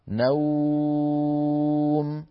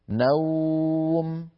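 First: The vowel is held for six counts. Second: The vowel is held for four counts. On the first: "هذه ستة" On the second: "هذه أربعة"

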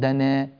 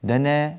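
Both takes have the same delivery.

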